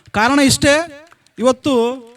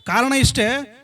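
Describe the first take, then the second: First: Loud emphatic. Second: Said in the usual way. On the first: Shown as a demonstration. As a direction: hammer ಇಷ್ಟೇ home to the crowd. Repeated rhetorical lead-in, punched.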